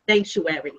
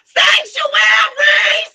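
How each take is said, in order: First: It is said at normal, quiet volume. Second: It is yelled out loudly.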